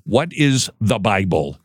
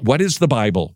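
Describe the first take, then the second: First: Slow down and lean on "is" in "What is the Bible?"; slower emphatic repeat. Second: Said in the usual way. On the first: Shown as a demonstration. Host repeating his question to press the point, slow emphatic stress. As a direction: ask "What is the Bible?" slowly, weighting "is". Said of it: "what is the Bible? (first asking)". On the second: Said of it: "what is the Bible? (repeated for emphasis)".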